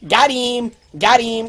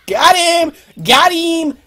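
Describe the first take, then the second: First: Said in the usual way. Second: Loud, high excited call. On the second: Real, not acted. Player hooking a fish, loud excited call. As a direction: shout it as the fish bites.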